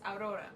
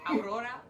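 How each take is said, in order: First: The name is said with a foreign accent. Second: The name is said with an English accent. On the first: The speaker calls it right. "Put a little seasoning on that. Yes" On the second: The speaker calls it wrong. "I hate saying it in English"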